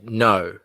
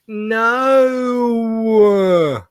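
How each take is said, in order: First: The word is short, plain and flat. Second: The word is drawn out and whining. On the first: "they won't just say no" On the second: "They'll say no like that"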